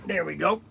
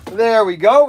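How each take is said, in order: First: Quiet "There we go" with a rising end; soft muttered "There we go". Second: Louder "There we go" with a rising end; louder cheerful "There we go". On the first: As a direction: say it softly under the breath. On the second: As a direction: call it out, pleased. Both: Real, not acted.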